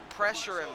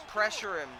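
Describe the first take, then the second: No difference in how they are said.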